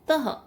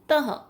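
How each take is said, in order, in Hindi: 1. अंतिम महाप्राण ह की ध्वनि स्पष्ट है। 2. अंतिम महाप्राण ह की ध्वनि कमज़ोर है। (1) "इसकी आवाज इसी तरह से आनी चाहिए, स्पष्ट रूप से उच्चारण" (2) "नहीं"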